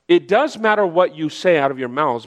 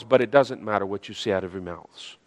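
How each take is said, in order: First: DOES picked out as the key word; stress on DOES. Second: Much lower and softer; careful, subdued qualification. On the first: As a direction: lean on DOES, then let the phrase step down. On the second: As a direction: drop "doesn't matter" down like a careful aside. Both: Shown as a demonstration. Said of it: "be careful on how I say this".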